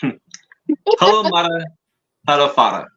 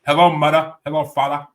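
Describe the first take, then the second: First: Put-on accent meant as Italian; exaggerated foreign accent, vaguely Italian; mock Italian-sounding accent. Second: Put-on Yiddish accent, louder; mock Yiddish accent. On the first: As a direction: do a rough, comic Italian-style accent. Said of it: "I'm not gonna do the accent". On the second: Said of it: "there you go".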